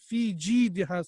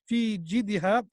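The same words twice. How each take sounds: First: The vowel after the j is held long. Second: The vowel after the j is kept short. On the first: The speaker calls it right. "we have to stretch for one alif" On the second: The speaker calls it wrong. "Some people they don't stretch the jim"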